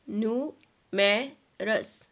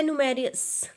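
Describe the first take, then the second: First: numerous very slowly split as new... मे... रस; slow teacherly three-part numerous; syllable by syllable. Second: Said in the usual way. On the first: Shown as a demonstration. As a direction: sound out numerous in three separate beats. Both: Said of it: "syllables अलग करेंगे".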